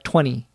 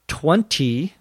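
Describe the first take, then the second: First: It is said quickly with the T dropped. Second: It is said with a heavily exaggerated T. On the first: "It's almost like you pronounce it T-W-E-N-Y without the T. That would be in fast conversation" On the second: "You wouldn't say 20. You wouldn't overpronounce the T"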